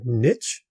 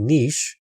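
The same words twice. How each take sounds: First: The word is said with an American pronunciation. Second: The word is said with a non-American pronunciation. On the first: The speaker calls it wrong. "in America, they like to say the word niche" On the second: The speaker calls it right. "The word is actually niche"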